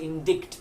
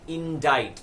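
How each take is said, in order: First: A k sound is heard before the t. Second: No k sound is heard before the t. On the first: The speaker calls it wrong. "if you read it, you would think it is indict" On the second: The speaker calls it right. "the C is silent"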